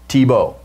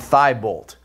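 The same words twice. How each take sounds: First: The final T sound is silent. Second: The final T sound is pronounced. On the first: It is said the French way. "it's French, Thibault. And it, it don't pronounce the T at the end" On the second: It is read the way it is spelled. "that's what it looks like. It ends with a T"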